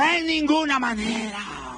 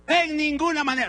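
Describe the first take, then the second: First: Slow, loud congregational echo; repeat loudly. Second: Loud, firm and final; emphatic declaration. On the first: Preacher leads church in repeating, slow loud chant. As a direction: call it out slowly with the crowd. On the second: Preacher to congregation, loud firm refusal. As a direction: slam the door on the idea. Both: Shown as a demonstration. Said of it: "Repite bien fuerte conmigo".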